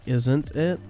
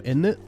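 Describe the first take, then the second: First: The full form is said with its t sound. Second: It is squeezed into one word without t. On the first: "instead of like saying isn't it" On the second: "when the British say in it ... they go in it"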